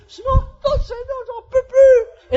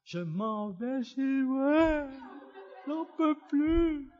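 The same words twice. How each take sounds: First: Very high, slow, hammed-up wail; desperate wail. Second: Slow, drawn-out mock sobbing wail; tearful wail. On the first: Driver stuck in village traffic, wailing in despair. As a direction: wail it out, stretching every word. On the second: Exhausted lost driver alone in the mountains, wailing tearfully. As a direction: whimper it slowly, as if breaking down. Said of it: "Je me suis effondré en larmes".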